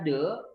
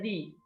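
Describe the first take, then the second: First: The vowel is short and neutral, like 'duh'. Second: The vowel is long and high, like 'dee'. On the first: The next word starts with a consonant. "T H E itu bisa dibaca de" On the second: The next word starts with a vowel. "bisa dibaca di"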